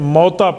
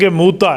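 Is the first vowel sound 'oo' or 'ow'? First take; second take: ow; oo. First: The first vowel sounds like 'ow' in 'out'. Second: The first vowel sounds like 'oo' in 'moon'. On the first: The speaker calls it wrong. "लोग इसे पढ़ने में गलती करते हैं, मौता पढ़ते हैं" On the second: The speaker calls it right. "मौता नहीं है, जंग मूता है"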